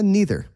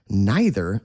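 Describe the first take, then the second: First: It uses the casual-sounding pronunciation. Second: It uses the formal-sounding pronunciation. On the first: The speaker sounds normal and casual. "if you want to sound normal and casual, just say neither" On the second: The speaker sounds formal. "neither sounds a little weird. It sounds very formal"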